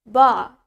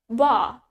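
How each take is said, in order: First: It is said in a British accent. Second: It is said in a British accent.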